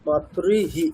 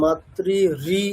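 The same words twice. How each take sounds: First: "মাতৃহি" ending in a short "হি"; exception with short hi. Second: "মাতৃ রি" repeating the "রি" sound at the end; wrong ri echo. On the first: Teacher giving the correct exception, "মাতৃহি" with short final হি. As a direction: finish "মাতৃ" with a brief "হি", not "রি". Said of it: "এখানে হ্রস্ব ইকার হবে". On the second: Teacher warning about the exception, "মাতৃ রি" with wrongly echoed রি. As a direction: echo the vowel as "রি" instead of "হি". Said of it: "এরকম না". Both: Shown as a demonstration.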